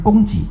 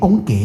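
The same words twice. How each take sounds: First: The second syllable is pronounced ji. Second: The second syllable is pronounced gei. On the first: The speaker calls it right. "我们叫供给啊" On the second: The speaker calls it wrong. "不能说念供给啊"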